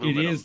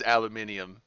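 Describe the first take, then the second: First: The word is said with four syllables. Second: The word is said with five syllables. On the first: The speaker calls it wrong. "It's not aluminum" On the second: The speaker calls it right. "They're technically right. It is aluminium"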